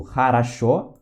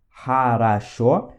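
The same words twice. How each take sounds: First: Said in the usual way. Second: Хорошо drawn out slowly as HA-RA-SHO; syllable by syllable. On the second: Shown as a demonstration. Teacher showing how X sounds, хорошо syllable by syllable. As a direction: stretch each syllable of хорошо. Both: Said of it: "ele tem som de Ra".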